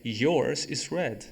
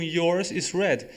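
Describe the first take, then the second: First: Slow, careful example; slow model sentence; slow demo. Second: Slow recap of the example; slow demo. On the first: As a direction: say it slowly for learners. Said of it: "depois eu falei". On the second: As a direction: repeat the model slowly. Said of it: "Eu só falei um". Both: Shown as a demonstration.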